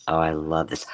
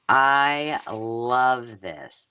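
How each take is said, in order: First: Said in the usual way. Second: "I love this" stretched very slow, each word held; slow, moved "I love this"; drawn out. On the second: Real, not acted. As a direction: linger on "I love this" as if savouring it. Moved by the gift.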